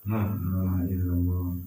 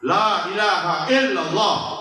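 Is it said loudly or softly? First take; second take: softly; loudly. First: It is said softly and weakly. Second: It is said loudly and forcefully.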